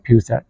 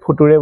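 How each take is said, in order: First: It is said as fyoo-cher. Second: It is spelled out as foo-too-ray. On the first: The speaker calls it right. "কিন্তু এইটো হৈছে ফিউচাৰ" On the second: The speaker calls it wrong. "মই নিজে ফুতুৰে বুলি কৈছিলোঁ class ফাইভত"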